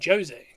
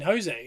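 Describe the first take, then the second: First: The name is pronounced the Portuguese way. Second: The name is pronounced the Spanish way. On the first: The speaker calls it right. "No, no, I mean Jose" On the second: The speaker calls it wrong. "that's Spanish Mexican as opposed to Portuguese Brazilian"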